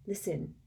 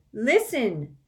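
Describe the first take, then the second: First: Quiet. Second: Insistent. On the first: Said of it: "said Harry". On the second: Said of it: "said Harry again". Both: A narrator's reading.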